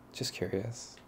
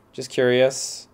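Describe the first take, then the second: First: Soft aside. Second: Blurted out. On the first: Repeated softly to self. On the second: Blurted reply, louder. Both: Acted.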